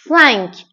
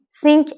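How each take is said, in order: First: The vowel is an open nasal vowel. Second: The vowel is a plain 'ee' before n. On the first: The speaker calls it right. "ای و ان تلفظش از ان ان" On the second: The speaker calls it wrong. "سینک اشتباهه"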